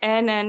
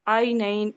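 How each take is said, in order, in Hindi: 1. स्वर एक लंबी 'e' ध्वनि है। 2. स्वर एक स्पष्ट 'ai' डिफ़्थॉन्ग है। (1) "नहीं पढ़ेंगे इसको" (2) "इसको पढ़ेंगे"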